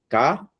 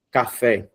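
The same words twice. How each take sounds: First: "Café" split into ca... fé with a long pause; syllable by syllable. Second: Said in the usual way. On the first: Shown as a demonstration. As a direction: hold a clear gap between the syllables of "Café". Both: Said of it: "separar a palavra em sílabas".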